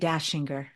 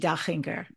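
First: The ch is pronounced the American way. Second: The ch is pronounced the German way. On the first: This is how locals usually say the name. The speaker calls it wrong. "people here say Dachinger" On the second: This is the name's true pronunciation. The speaker calls it right. "it is Debbie Dachinger"

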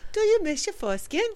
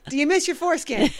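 First: It is said in a put-on British accent. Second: It is said in the speaker's normal accent.

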